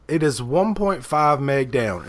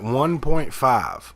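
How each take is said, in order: First: Said in the usual way. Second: Slow, stunned repeat of one point five; incredulous question. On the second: Retold or imitated. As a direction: drag it out in disbelief. Disbelief at the slow internet.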